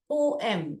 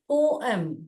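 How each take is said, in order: First: The word is split into two syllables. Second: The word is split into two syllables.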